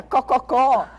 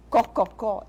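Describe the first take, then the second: First: Loud high hen cluck, cococó. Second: Cococó, louder, clipped example; demonstrating hen sound. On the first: Therapist clucking like a hen for a child, loud and high. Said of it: "sons onomatopeicos". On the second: Therapist quoting the hen sound to parents, lightly performed. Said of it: "ensino uma criança a falar". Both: Shown as a demonstration.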